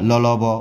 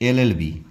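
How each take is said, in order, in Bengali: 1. প্রতিটি অক্ষর শুধু ব্যঞ্জনধ্বনি হিসেবে উচ্চারণ করা হয়। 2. প্রতিটি অক্ষর তার পূর্ণ নামে উচ্চারণ করা হয়। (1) "ল ল ব উচ্চারণ করতে পারবো না" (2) "এল উচ্চারণ করার সময় কী হচ্ছে? এ ল"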